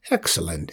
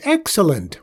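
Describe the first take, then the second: First: "Excellent" said low and falling, a pleased murmur. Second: "excellent" much higher and louder, bursting with joy; joyful exclamation. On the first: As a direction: drop the voice on "Excellent", savoring it. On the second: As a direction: leap up on "excellent" with delight. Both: A narrator's reading. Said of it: "nearly jumped out of his skin with joy".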